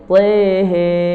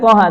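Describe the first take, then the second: First: The vowels are fronted, like 'e'. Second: The vowels are open, like 'a'. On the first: The speaker calls it right. "tapi tehe" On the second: The speaker calls it wrong. "tidak dibaca toha"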